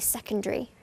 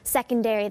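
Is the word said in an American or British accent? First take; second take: British; American. First: It is said in a British accent. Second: It is said in an American accent. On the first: "they say secondary" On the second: "instead of secondary"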